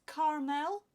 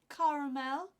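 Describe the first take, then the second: The two takes are said the same way.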